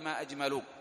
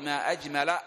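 First: The word أجمل ends with a 'u' vowel. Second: The word أجمل ends with an 'a' vowel. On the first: It asks what the most beautiful thing is. The speaker calls it wrong. "ولا تقولي ما أجمل" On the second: It exclaims how beautiful something is. The speaker calls it right. "إن أردت التعجب فقولي ما أجمل"

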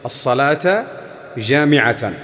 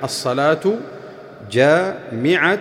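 First: Both words end with an a-vowel. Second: Both words end with a u-vowel. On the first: It is an urging call to attend the prayer. "والمشهور عندهم الفتح في اللفظين" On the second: It is a plain statement that the prayer gathers people. "والأخير على أنه مبتدأ وخبر"

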